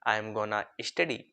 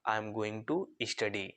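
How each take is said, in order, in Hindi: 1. Going to को gonna बोला जाता है। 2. Going to पूरा बोला जाता है।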